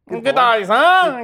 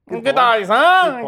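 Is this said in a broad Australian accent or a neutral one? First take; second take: Australian; Australian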